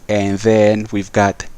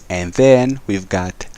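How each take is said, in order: The two takes are said the same way.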